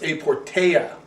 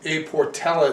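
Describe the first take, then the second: First: The name is said without an L sound. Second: The name is said with an L sound. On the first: The speaker calls it right. "They do not pronounce the L" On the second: The speaker calls it wrong. "I call this A Portella"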